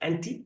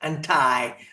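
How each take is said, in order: First: It is said with a British pronunciation. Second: It is said with an American pronunciation. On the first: The speaker calls it right. "British is anti" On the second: The speaker calls it wrong. "Americans they make they, they pronounce as anti"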